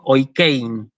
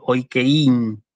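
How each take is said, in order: First: "oikein" with the E stressed, oi-KÉIN. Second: "oikein" slowly, wrongly stressed on the I, oi-ke-ÍN; wrong stress demo. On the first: Teacher shows how she says the word, stress on E. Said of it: "el acento lo pronuncio sobre la E". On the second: Teacher shows what she does not say, wrong stress demo. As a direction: split the diphthong and hit the I in "oikein". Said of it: "y no digo oikein". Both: Shown as a demonstration.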